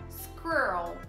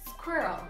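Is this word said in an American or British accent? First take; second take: American; British. First: The r sound is strongly curled. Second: The r sound is soft and weak. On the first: "O segredo aqui é você saber enrolar esse R" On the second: "O R é menos pronunciado e o R ele é suavizado"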